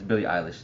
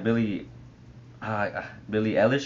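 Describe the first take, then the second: First: The sounds in the name are evenly said. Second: Some sounds in the name are overemphasized. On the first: The speaker calls it right. "but it's [name]. I'm not supposed to put as much emphasis on some of the letters" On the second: The speaker calls it wrong. "at first I think I was saying like Billie Eilish or something like that"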